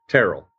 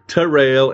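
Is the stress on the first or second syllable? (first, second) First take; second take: first; second. First: The stress is on the first syllable. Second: The stress is on the second syllable. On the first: The speaker calls it right. "Terrell's like Carol" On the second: The speaker calls it wrong. "it's not Terrell"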